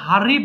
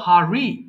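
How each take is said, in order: First: The r sound is strong and hard. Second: The r sound is soft and gentle. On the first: The speaker calls it wrong. "So এটাকে সরাসরি হারি বলবো না" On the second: The speaker calls it right. "আমরা simply বলবো হারি"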